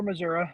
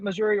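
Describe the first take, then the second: First: "Missouri" pronounced with a closing uh; Missouri ending in -uh. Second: "Missouri" pronounced with a closing ee; Missouri ending in -ee. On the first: Candidate showing host the other regional pronunciation, "Missouri" ending in uh. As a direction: say "Missouri" as Mizz-OOR-uh. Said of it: "depends which, uh, part of the state". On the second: Candidate showing host one local pronunciation, "Missouri" ending in ee. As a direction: say "Missouri" as Mizz-OOR-ee. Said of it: "we pronounce it Missouri or Missouri". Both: Shown as a demonstration.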